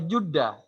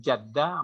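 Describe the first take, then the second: First: The first syllable has the vowel u. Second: The first syllable has the vowel a. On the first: It means good fortune. "kalau dibaca Judah itu artinya nasib baik" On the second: It means grandmother. "Kalau Jaddah itu nenek"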